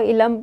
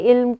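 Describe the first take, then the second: First: An extra vowel separates the l and m. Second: The l and m are joined with no vowel. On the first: The speaker calls it wrong. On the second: The speaker calls it right.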